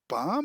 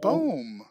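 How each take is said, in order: First: The vowel sounds like 'ow' in 'town'. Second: The vowel sounds like 'oo' in 'room'. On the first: The speaker calls it wrong. "it's not Baum" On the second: The speaker calls it right. "it's Boom, right?"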